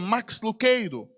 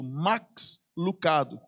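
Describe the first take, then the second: First: The surname is pronounced the American English way. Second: The surname is pronounced just as it is spelled. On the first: This is how it is said in the United States. "nos Estados Unidos, a pronúncia correta é" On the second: This is the form used commercially in Brazil. "seria realmente falado como é escrito"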